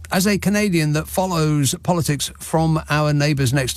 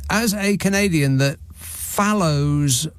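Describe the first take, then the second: First: Said in the usual way. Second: "follows" read slowly as misspelt; halting, over-literal reading of "follows"; reading mistakes as written. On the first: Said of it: "I'll edit out the mistakes". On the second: Shown as a demonstration. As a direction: drag out "follows" just as it is written. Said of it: "shall I read this as written".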